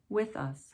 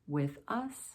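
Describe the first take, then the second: First: The pitch steps down from with to us. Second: The pitch steps up from with to us. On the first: It asks for information. "Falling intonation, step down from with to us" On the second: It asks a yes-or-no question. "So I step up from with to us"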